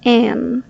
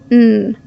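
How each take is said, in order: First: The word is reduced, dropping the final d. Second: The word is reduced to a quick n sound. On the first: "native speakers reduce it to an" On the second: "or quick n"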